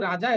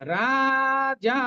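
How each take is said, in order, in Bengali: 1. দুটো স্বরই হ্রস্ব। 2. দুটো স্বরই দীর্ঘ। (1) "আমরা কিন্তু রাজা এরকম বলে ফেলবো না।" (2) "আমরা দুটোকেই দীর্ঘভাবে উচ্চারণ করব।"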